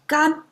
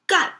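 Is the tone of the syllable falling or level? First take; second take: level; falling. First: The syllable is said without a falling tone. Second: The syllable is said with a forceful falling tone. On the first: It means dry. "gan means dry" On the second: It means to do. "if it is fallen tone"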